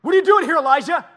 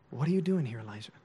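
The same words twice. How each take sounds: First: Loud, high-pitched angry demand; angry God. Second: Soft, low, tender question; gentle God. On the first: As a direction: bellow it like an outraged God. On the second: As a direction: ask gently, dropping away on the name. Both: Acted. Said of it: "What do you think his voice sounded like?".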